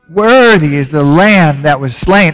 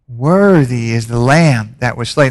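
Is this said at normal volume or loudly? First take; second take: loudly; normal. First: It is said loudly, almost shouted. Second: It is said at a normal volume. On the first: "Say it louder" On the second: "Say that with me"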